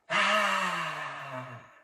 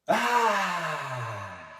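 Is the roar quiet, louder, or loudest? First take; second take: quiet; louder. First: The roar is quiet. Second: The roar is somewhat louder.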